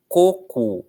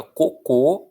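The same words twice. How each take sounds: First: "Coco," stressed on the first "co", closed o; "Coco," first syllable strong. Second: "cocô," stressed on the final "cô"; "cocô," last syllable strong. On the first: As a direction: say "Coco," leaning on "Co". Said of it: "A força está na primeira sílaba". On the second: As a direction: punch the end of "cocô,". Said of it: "aí a força já é a última". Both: Shown as a demonstration.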